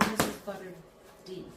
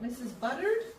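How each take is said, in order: First: The final D is said as a letter. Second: The final D blends into the word.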